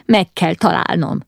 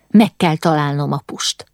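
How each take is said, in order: First: Breathless, urgent determination; a touch of gasping in the voice; panting. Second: Said in the usual way. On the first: A narrator's reading. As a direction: push it out short of breath. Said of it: "zihálta".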